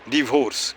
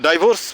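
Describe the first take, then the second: First: The first vowel sounds like 'i'. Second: The first vowel sounds like 'ai'. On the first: The speaker calls it right. "उसको क्या बोलेंगे" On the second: The speaker calls it wrong. "डाइवोर्स बोलते हो ना जी"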